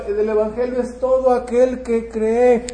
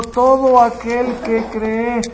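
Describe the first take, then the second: First: Said in the usual way. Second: Todo aquel que cree slow and louder, stress on todo. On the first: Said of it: "sino todo aquel que cree". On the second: Shown as a demonstration. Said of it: "no solamente los judíos".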